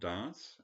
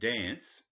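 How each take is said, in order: First: It is said the posh way. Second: It is said the plain, everyday way. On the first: This is not how people in New South Wales say it. The speaker calls it wrong. "not dance" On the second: This is how people in New South Wales say it. The speaker calls it right. "but then we say dance"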